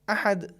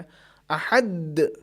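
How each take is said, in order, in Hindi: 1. अंतिम d हल्की सी छोड़ी गई है और सुनाई देती है। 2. अंतिम d को ज़ोर से दबाया गया है, जैसे दोहरा हो। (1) "ये सही है चूँकि आवाज़ दाल की सुनाई दे रही है" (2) "इस पर तशदीद जैसी कैफ़ियत आ गई"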